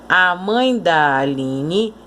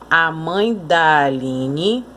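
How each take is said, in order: No difference in how they are said.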